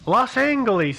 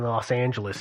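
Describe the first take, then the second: First: The name has an old-fashioned newsreel pronunciation. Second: The name has the ordinary modern pronunciation. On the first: "hear it pronounced that way" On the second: "as we all say it now"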